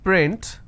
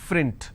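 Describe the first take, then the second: First: The word begins with a 'p' sound. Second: The word begins with an 'f' sound. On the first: The speaker calls it right. "if I have the word which is print" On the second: The speaker calls it wrong. "lot of people pronounce this as frint"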